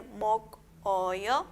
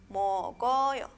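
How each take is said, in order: First: "mokoyo" broken as mok, o-yo, with a pause after the k; unlinked reading. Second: "Mokoyo" as mo-ko-yo, k joined to the following vowel; linked reading. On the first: Teacher showing no va a ser, "mokoyo" split mok, o-yo. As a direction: stop hard on mok in "mokoyo", then o-yo separately. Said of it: "No va a ser mokoyo". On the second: Teacher showing se une, "Mokoyo" read mo-ko-yo. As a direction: draw out "Mokoyo" with no stop after k. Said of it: "se une, ¿verdad?". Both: Shown as a demonstration.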